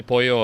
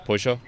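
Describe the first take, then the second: First: Pollo said "POY-yo"; pollo with a y sound. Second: Pollo said "POY-zho"; pollo with a zh sound. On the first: Showing own usual way of saying pollo, y sound. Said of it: "I say pollo or sometimes". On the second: Showing own alternative way of saying pollo, zh sound. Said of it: "or sometimes pollo". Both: Shown as a demonstration.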